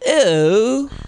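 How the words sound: It is said in a Valley Girl accent.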